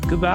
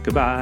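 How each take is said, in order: First: It is said in an excited tone. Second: It is said in a flat, plain tone.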